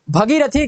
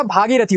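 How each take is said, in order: First: भगीरथी opened as bha; short first vowel. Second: भागीरथी opened as bhaa; long first vowel. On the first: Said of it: "नहीं होता". (भगीरथी, छोटा भ) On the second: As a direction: stretch the aa in भागीरथी. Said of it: "भागीरथी होता है". (भागीरथी, लंबा भा) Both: Shown as a demonstration.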